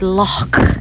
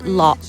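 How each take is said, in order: First: The word ends in a breathy throat sound. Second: The word ends in a hard k sound. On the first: The speaker calls it right. "instead of loch" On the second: The speaker calls it wrong. "tells me off regularly for saying loch instead"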